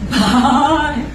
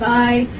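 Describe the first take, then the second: First: The b has a breathy h after it. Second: The b is plain, with no breathy h. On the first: "there's like this H sound" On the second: "Instead of saying bye"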